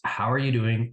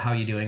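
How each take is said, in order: First: It is asked sincerely, with real interest. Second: It is asked casually, as a throwaway greeting.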